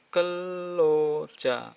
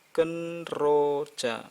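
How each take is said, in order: First: The middle is pronounced as a long double L. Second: The middle is pronounced as N followed by R. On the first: The speaker calls it right. "maka jadi double L, suara double L juga" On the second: The speaker calls it wrong. "bukan kenroja, kenroja, salah"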